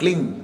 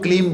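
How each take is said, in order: First: The word ends with an ng sound. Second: The word ends with an m sound. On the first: The speaker calls it right. "But उच्चारण क्लिंग का" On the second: The speaker calls it wrong. "इसको भी लोग क्लीम बोलते हैं"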